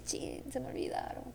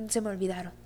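First: Breathy whispered curse at herself; whispered dismay. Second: Said in the usual way. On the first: Retold or imitated. Retelling forgetting the house keys, whispered dismay. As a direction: whisper it like realizing your mistake.

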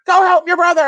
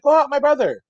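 First: Loud, high mock yell; imitating nagging wife. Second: High mock call, not shouted; imitating wife's plea. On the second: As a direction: echo the wife in a raised pitch. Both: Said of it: "his wife's like".

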